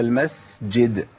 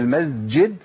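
First: The sound before the j is a breathy s. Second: The sound before the j is a voiced z. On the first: The speaker calls it right. "التانية أنا قلتها؟ مشيت نفس المس" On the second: The speaker calls it wrong. "المز، منعت النفس"

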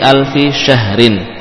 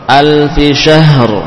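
First: The last word ends with a vowel and n. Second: The last word stops on the final r. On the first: The reading continues without stopping. "Seperti alfi syahrin" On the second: The reader stops at this word. "Kalau waqaf berarti apa? Kita sukun huruf ra"

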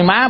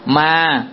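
First: The word is said with a high rising tone. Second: The word is said with a level tone. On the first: It means mother. "má bỏ dấu sắc" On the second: It means ghost. "bỏ dấu sắc lại ta gọi thân trung ấm đó là ma"

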